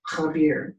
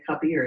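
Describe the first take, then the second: First: The word starts with a rasping kh sound. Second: The word starts with a plain k sound. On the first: The speaker calls it right. "is K-H, not K-A" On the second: The speaker calls it wrong. "we always say Kabir"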